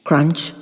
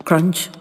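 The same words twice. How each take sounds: The two takes are said the same way.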